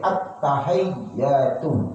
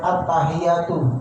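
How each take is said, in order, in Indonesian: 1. Bunyi t dan y dibaca panjang. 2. Bunyi t dan y itu pendek. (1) "tapi at-tahiyyatu, hayy gitu ya" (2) "bukan at-tahiyyatu"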